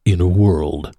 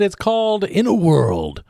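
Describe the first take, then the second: First: Deep booming trailer voice; movie trailer voice. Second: Said in the usual way. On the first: Shown as a demonstration. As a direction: say it like Don LaFontaine. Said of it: "Name that voice actor". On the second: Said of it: "or perhaps I should say".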